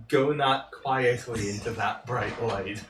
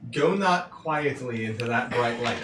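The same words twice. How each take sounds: First: Slow, low ethereal psychic voice; dreamy distant voice. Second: A spirit speaking from far away; dreamy distant voice. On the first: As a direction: intone it like a distant spirit. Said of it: "I'm trying to do a psychic ethereal voice". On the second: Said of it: "and not in my voice". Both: Acted.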